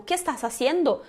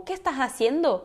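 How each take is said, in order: First: "¿Qué estás haciendo?" run together with every S sounded; strong S, linked. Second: "¿Qué estás haciendo?" with the S of "estás" breathed like an H; aspirated S. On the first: Teacher showing linked words still keep the S, crisp linked S. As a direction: link "estás haciendo" with a clear S. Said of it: "Tudo com som de S". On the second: Teacher showing students the aspirated S, breathy H for S. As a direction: soften "estás" to "ehtah", linked into "haciendo". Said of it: "se tu fizeres o S aspirado". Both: Shown as a demonstration.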